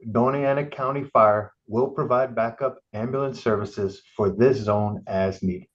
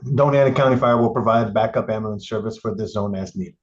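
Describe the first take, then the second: First: It is read slowly. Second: It is read quickly.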